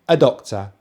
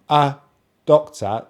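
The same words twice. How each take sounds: First: The two words run together smoothly. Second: The two words are said separately. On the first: The speaker calls it right. "they almost join together" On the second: The speaker calls it wrong. "not a doctor"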